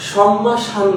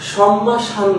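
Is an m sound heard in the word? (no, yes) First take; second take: yes; yes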